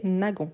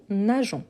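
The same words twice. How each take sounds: First: "nagon" with the g of "gare"; hard g in nagon. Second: "nageons" slowly, g as zh: na-zhon; slow, careful "nageons" with a soft zh. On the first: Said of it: "prononcer nagon". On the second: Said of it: "Pour ne pas ... prononcer nagon". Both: Shown as a demonstration.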